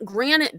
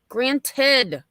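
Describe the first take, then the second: First: The ending is slurred, sounding like granite. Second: The ending is crisp with a clear ted. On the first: The speaker calls it wrong. "she's still saying granite. Like just it's not granite" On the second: The speaker calls it right. "he enunciated perfectly"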